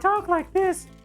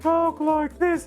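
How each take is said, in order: First: It is said in a higher voice. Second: It is said in a lower voice.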